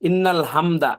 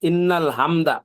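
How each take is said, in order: Both takes have the same delivery.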